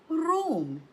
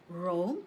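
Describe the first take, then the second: First: "Rome" said as German Rom, high then falling; German pronunciation. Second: Said in the usual way. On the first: Shown as a demonstration. Teacher has learners repeat, "Rome" in German pronunciation. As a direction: model "Rome" the German way, higher, with a firm fall. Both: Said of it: "Just listen and repeat after me".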